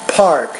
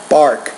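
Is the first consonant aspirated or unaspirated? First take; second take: aspirated; unaspirated. First: The first P is released with a strong puff of air. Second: The first consonant has little puff of air. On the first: The speaker calls it right. "you need to pronounce these with more air" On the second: The speaker calls it wrong. "I'm not going to say bark"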